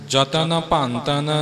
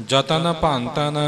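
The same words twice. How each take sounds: The two takes are said the same way.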